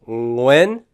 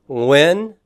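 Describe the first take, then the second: The two takes are said the same way.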